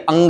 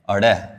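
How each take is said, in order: First: The letter name ends with a nasal 'ng' sound. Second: The letter name ends with a flapped 'd' sound. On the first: The speaker calls it right. "ये अंग है" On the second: The speaker calls it wrong. "ऐसे पढ़ते हैं नहीं"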